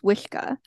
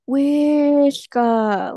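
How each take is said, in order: First: The word is said plainly without extra emphasis. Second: The word is said with strong drawn-out emphasis. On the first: The thing is simply big. "the word for big is" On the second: The thing is bigger than usual. "you would just really emphasize the word big"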